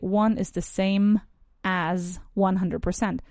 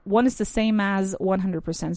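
First: The words are said separately, without linking. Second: The words run together, linked smoothly. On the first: "a lot of my students actually say" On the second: "So this is the linking I'm talking about"

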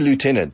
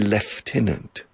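First: The first syllable sounds like 'loo'. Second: The first syllable sounds like 'lef'. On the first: This is the American pronunciation. "We say lieutenant" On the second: This is the British pronunciation. "The British say lieutenant. They pronounce it lef, con F"

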